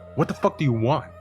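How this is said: It is said in an angry, commanding tone.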